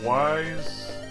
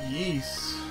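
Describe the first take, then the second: First: The name is said like the word 'wise'. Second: The name is said like 'ease', starting with E. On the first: "I've also heard people call it Wise" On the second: "pronouncing the Y sort of like an E sound, like East"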